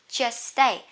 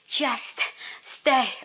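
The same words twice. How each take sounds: First: The shared s-t sound is said only once. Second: Both s-t sounds are said fully and separately. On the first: The speaker calls it right. "Two S T go together. You just say one" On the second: The speaker calls it wrong. "Don't have to say just stay. Oh my god, too long and then too tiring"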